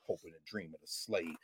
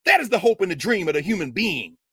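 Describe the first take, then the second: First: Very low, soft delivery; hushed aside. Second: Loud, forceful proclamation; emphatic declaration. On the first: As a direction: drop right down, almost under the breath. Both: Shown as a demonstration. Contrasts human being with slave.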